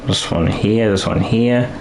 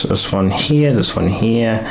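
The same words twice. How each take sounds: The two takes are said the same way.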